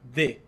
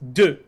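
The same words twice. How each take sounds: First: The vowel sounds like an accented e, é. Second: The vowel sounds like the one in deux. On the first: The speaker calls it wrong. "Like they're inventing like an accent on the top of the e" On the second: The speaker calls it right. "it's de, like the number two"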